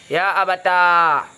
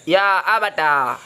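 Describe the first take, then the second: Both takes have the same delivery.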